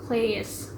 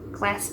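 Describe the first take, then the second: First: Said slowly with the vowel drawn into a glide. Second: Said quickly with a short, single vowel. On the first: "tapi di sini dibacanya class" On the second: "dalam standard English dibacanya class biasa"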